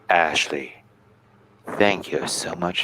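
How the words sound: The voice is pitched low and deep. The speaker calls it wrong.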